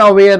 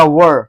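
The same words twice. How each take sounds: First: "where" with an open e, rhyming with air; wrong pronunciation. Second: "were" with a rounded central vowel, like "wur"; correct pronunciation. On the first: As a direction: say "where" as the mistaken reading, open vowel. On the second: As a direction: round the lips into a short "were", no e sound. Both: Shown as a demonstration. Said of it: "इसको पढ़ेगा were".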